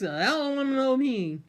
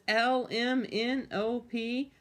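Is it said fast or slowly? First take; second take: fast; slowly. First: The letters are said fast. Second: The letters are said slowly.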